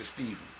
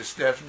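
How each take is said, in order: First: Stephen with a long ee and a v; "STEE-ven", the v way of saying Stephen. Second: Stephen with a short e and an f; "STEFF-en", the f way of saying Stephen. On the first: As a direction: pronounce Stephen "STEE-vun". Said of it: "Some people say Stephen". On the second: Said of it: "some say Stephen". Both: Shown as a demonstration.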